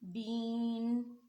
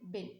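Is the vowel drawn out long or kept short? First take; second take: long; short. First: The vowel is stretched out long. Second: The vowel is kept short. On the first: The speaker calls it wrong. "इस तरीके से यानी कि ज़्यादा लंबा ना पढ़ा जाए" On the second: The speaker calls it right. "बल्कि बादोज़ बिन बाज़ेर नून बिन इस तरीके से पढ़ा जाए"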